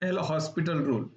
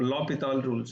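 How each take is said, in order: First: The name is said with an 's' sound. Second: The name is said without an 's' sound. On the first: The speaker calls it wrong. "which is not the right way to say it" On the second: The speaker calls it right. "It is L'Hopital rule"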